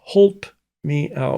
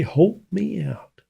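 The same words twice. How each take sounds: First: "holp" said with a long o, like hope; "holp" drawn out slowly with a long o; old past tense holp. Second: "holp" said slowly with a long o, like hope; quoted dialect holp. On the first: Shown as a demonstration. Explaining grandfather's word, slow "holp" with long o. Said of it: "was the past tense of help". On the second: Retold or imitated. Grandfather tells of a neighbour's help, "holp" with long o. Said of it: "And he said".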